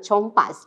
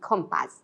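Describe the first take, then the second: First: The first consonant is not a K sound. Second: The first consonant is a K sound. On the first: The speaker calls it wrong. "not chompas" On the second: The speaker calls it right. "the consonant sound of C that is read as K"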